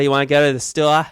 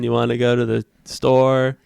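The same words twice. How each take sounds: First: It is said in a put-on Boston accent. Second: It is said in a plain, everyday accent.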